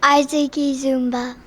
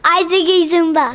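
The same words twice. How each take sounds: First: The name is said plainly, without much energy. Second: The name is said with passion and energy.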